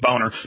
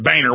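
First: The first vowel sounds like 'bone'. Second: The first vowel sounds like 'bay'. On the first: This is the original German way to say it. The speaker calls it right. "which I've talked to Germans and looked it up. It is boner" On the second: This is how the name's bearer says it. The speaker calls it wrong. "but he pronounces it Boehner"

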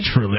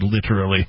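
First: The word is said with a ch sound. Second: The word is said without a ch sound. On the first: "I don't put the ch sound in there" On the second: "I tend to probably say literally"

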